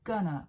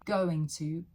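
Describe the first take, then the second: First: The words are reduced to one word. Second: Both words are said in full.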